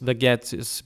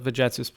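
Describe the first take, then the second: First: It uses the classical Latin pronunciation. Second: It uses the ecclesiastical Latin pronunciation.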